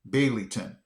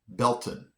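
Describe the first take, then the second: First: The name is said with three syllables. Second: The name is said with two syllables. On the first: The speaker calls it wrong. "I would have pronounced this Baileyton" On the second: The speaker calls it right. "it's actually Belton"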